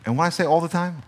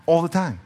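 First: Said in the usual way. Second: All the time said with weight; stressed repeat. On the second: Shown as a demonstration. Preacher insisting to the congregation, stressed repeat.

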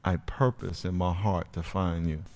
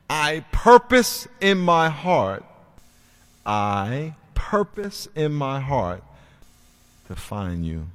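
First: Said in the usual way. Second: Slow, weighty prayer; solemn declaration. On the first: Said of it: "write this down". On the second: Shown as a demonstration. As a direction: pronounce it like a vow. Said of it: "I want you to write this down".

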